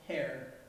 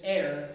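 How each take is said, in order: First: The word starts with an audible h sound. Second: The word starts with no h sound. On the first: The speaker calls it wrong. "I used to think it was pronounced hair, because there's an H" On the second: The speaker calls it right. "it was actually a silent H. It's heir"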